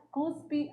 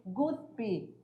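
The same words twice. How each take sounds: First: CUSPE with a hard C; softer "cuspe", opening on a K sound; correct pronunciation. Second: GUSPE with a G at the start; softer, lower "guspe", opening on a hard G; incorrect pronunciation. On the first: Teacher names the correct column, correct pronunciation. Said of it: "o correto é a segunda coluna". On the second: Teacher names the faulty column, incorrect pronunciation. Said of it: "com G". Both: Shown as a demonstration.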